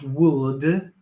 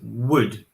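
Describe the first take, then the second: First: The L sound is pronounced in the word. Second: The L sound is not pronounced at all. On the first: The speaker calls it wrong. "not would" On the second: The speaker calls it right. "Notice that the L is silent"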